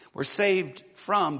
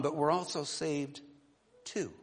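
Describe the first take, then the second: First: Slow, louder "We're saved from" with weight on "from"; stress on saved from. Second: "saved to" with the weight moved onto "to"; stress on saved to. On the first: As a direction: lean hard on "saved from", slowly. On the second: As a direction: land on "to" in "but we're also saved to". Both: Shown as a demonstration. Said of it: "When I say saved to".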